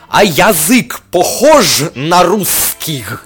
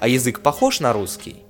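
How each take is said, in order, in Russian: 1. Фраза произнесена странно, с искажённым произношением. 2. Фраза произнесена стандартным русским произношением. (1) "А могу произнести ее по-другому" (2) "Я произнес его по-русски"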